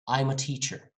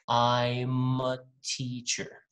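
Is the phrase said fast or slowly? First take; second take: fast; slow. First: The phrase is said quickly and fluently. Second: The phrase is said slowly, in slow motion. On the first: "when they speak fluently or fast" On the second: "I'm going to do that slow motion"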